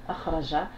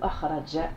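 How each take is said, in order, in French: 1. La dernière consonne est un son 'zh' doux. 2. La dernière consonne est un son 'dj' dur.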